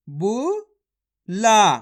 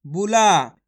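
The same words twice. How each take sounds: First: बुला drawn out very slowly, each sound held; slow syllable-by-syllable reading. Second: Said in the usual way. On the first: Shown as a demonstration. Teacher spelling बुला aloud slowly for pupils. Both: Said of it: "मेरे तरीके पे गौर करना है".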